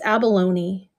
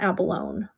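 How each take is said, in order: First: The final E is pronounced as a syllable. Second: The final E is silent, no extra syllable. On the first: The speaker calls it right. "you say the E" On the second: The speaker calls it wrong. "I hear people say incorrectly all the time"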